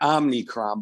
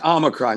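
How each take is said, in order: First: The word is said with an added n sound. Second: The word is said without an n sound. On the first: The speaker calls it wrong. "not Omnicron" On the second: The speaker calls it right. "yes, Omicron"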